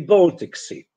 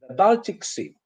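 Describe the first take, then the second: First: The first vowel is a long O sound. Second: The first vowel is an A sound. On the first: The speaker calls it right. "of course, it should be Baltic Sea" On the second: The speaker calls it wrong. "the sea that Poland has access to is the Baltic Sea"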